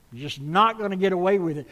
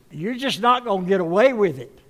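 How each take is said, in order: First: Faster, lighter echo of the warning; quicker repeat. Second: Louder warning with NOT hit hard; loud emphatic warning. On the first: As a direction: rattle it off again. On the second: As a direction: shout it to the congregation, stress on not. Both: Shown as a demonstration.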